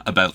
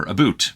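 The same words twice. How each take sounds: First: Said in the usual way. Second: "about" said as "a-boot"; "about" with ooh sound. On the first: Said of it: "clarification about the word about". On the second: Shown as a demonstration. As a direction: round the second vowel of "about" into ooh. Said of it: "the subtlety of the ooh sound".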